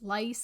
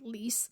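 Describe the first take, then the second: First: The vowel is a long eye sound. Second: The vowel is a long ee sound. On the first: "in the audiobook he says lice" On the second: "I think that's how you say it"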